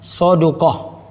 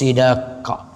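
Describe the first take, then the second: First: The first vowel is a, the second u. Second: The first vowel is i, the second a. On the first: "sodnya itu di fathah, dalnya itu di dhammah" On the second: "boleh juga sodnya di kasrah"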